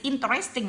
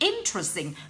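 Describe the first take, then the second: First: The stress is on a later syllable. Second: The stress is on the first syllable. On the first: The speaker calls it wrong. "don't say interesting" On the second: The speaker calls it right. "it must be interesting"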